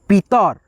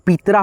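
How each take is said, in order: First: पीतर ending on a short र with no aa; correct reading. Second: पीतरा with a long aa added on the last रा; wrong reading. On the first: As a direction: keep the end of पीतर short and closed. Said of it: "ये जो है ना यहाँ से हट जाएगा". (पीतर को अंत में छोटे र के साथ सही बोलना) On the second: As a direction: show the mistake by lengthening the end into रा. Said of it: "आरए से रा लिखते". (पीतरा में अंत में लंबा आ जोड़कर गलत उच्चारण) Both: Shown as a demonstration.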